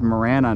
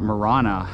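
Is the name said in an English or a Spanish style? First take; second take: English; Spanish. First: The name is said in an English style. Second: The name is said in a Spanish style. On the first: The speaker calls it right. "it's pronounced Marana" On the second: The speaker calls it wrong. "like I was pronouncing it in Espanol"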